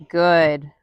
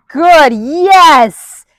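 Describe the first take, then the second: First: Said in the usual way. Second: High, loud burst of praise for the dog; excited praise. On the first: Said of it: "I just rewarded". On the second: Real, not acted. Trainer cheering her dog for stepping up, high and loud.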